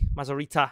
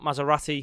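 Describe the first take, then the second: First: The name is said with a z, ending in -rita. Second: The name is said like the car brand Maserati. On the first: The speaker calls it right. "It's Al Mazar- Mazarita" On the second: The speaker calls it wrong. "I've been saying it wrong"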